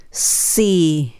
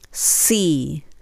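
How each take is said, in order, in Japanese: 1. この文字ははっきりしたsの音で始まります。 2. この文字ははっきりしたsの音で始まります。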